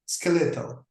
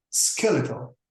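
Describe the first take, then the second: First: Skeletal with an Italian-sounding accent, ske-LE-tol. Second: Skeletal said SKEL-e-tal, American way. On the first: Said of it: "similar to the accent of the Italian people". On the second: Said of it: "The word we pronounce as skeletal". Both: Shown as a demonstration.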